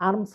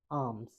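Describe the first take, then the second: First: আর্মস with the r sounded; R pronounced. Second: আর্মস with no r; silent R. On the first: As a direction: say আর্মস with r before the m. (র উচ্চারণ করে আর্মস) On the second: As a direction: say আর্মস as "aams". (র বাদ দিয়ে আর্মস) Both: Shown as a demonstration. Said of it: "আর এর উচ্চারণ হবে না".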